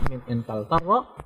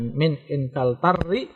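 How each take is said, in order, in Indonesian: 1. Kata itu berakhir dengan bunyi a. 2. Kata itu berakhir dengan bunyi i. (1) "Dari Inggris sama min Inkaltarra ya" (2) "tidak dibaca min Inkaltarri karena huruf akhirnya itu bukan ro tapi a"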